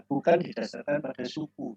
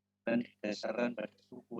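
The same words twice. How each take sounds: First: Bukan hit harder, whole line louder; stress on bukan. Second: Said in the usual way. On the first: Shown as a demonstration. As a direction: punch the word bukan. (tekanan pada kata bukan)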